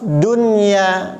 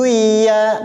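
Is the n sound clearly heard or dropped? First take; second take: clearly heard; dropped. First: The n is clearly pronounced before the y. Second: The n is merged away into the y. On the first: The speaker calls it right. "tetap dunya karena ini pengecualian" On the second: The speaker calls it wrong. "bukan duya"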